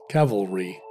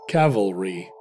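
No difference in how they are said.

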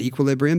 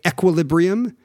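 First: The word has an everyday American pronunciation. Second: The word has a put-on British pronunciation. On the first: This is the speaker's usual way of saying it. "my whole life I've said equilibrium" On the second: The speaker is trying to sound smart. "this atrophied British pronunciation of things"

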